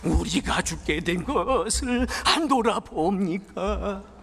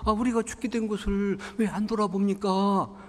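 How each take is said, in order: First: It is said with desperate, pleading emotion. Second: It is said flatly, without much emotion.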